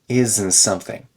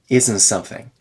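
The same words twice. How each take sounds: No difference in how they are said.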